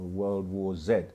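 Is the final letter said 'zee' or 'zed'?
zed. The letter Z is said as zed, British-style.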